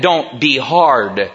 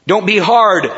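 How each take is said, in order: First: Slowly and softly, don't be hard; slow soft warning. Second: Don't be hard with a firm falling hard; firm stress on hard. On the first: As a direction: lay it down gently, almost pleading. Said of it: "Don't be hard, fathers". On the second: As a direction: plant the word hard like a command. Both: Shown as a demonstration.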